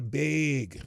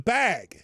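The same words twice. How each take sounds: First: The vowel is raised, Minnesotan style. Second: The vowel is plain and open. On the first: This is how someone else says it. "She calls it a bag" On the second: This is the speaker's own way of saying it. "It's a bag"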